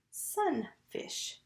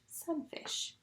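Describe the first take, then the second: First: "sunfish" in two beats, higher on sun, falling on fish; split into syllables. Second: Said in the usual way. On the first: Shown as a demonstration. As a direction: say "sunfish" with a pause after sun. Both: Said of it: "And that made the word".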